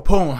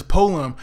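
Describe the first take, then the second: First: "poem" re-pronounced a little louder; alternative pronunciation of poem. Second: "poem" said the speaker's own first way; first pronunciation of poem. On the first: Reviewer correcting himself on the word, alternative pronunciation of "poem". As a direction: offer "poem" as the other way to say it. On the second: Reviewer naming the class assignment, first try at pronouncing "poem". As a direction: say "poem" casually, before offering another pronunciation. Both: Real, not acted. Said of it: "however you wanna say it".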